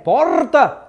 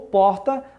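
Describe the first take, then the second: First: The R sounds like Rio Grande do Sul speech. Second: The R sounds like Rio de Janeiro speech.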